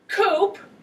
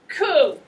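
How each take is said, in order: First: The word ends with a p sound. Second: The word ends in a vowel sound. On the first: The speaker calls it wrong. "It is not pronounced coop, which is where chickens live" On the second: The speaker calls it right. "This is pronounced coup, as in baby coup"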